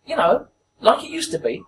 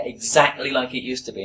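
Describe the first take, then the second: First: High-pitched old woman imitation; put-on elderly woman's question; old lady. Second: Said in the usual way. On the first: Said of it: "an old lady, at least eighty years old". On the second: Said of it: "And I went".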